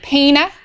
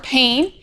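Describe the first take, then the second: First: The final e is sounded as an extra syllable. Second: The final e is silent, leaving one syllable. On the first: "the final E, like on the end of pain, like paina" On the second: "or pain"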